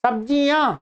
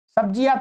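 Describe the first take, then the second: First: "सब्जियां" with a nasalised final -yaan; nasal ending. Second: "सब्जियां" said wrongly as sabjiyaa, with an oral last vowel; oral ending, no nasal. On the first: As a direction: let the last vowel of "सब्जियां" sound through the nose. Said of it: "नासिका से बोला जाता है". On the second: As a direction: drop the nasal from the end of "सब्जियां". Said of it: "सब्जियां तो नहीं बोलते". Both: Shown as a demonstration.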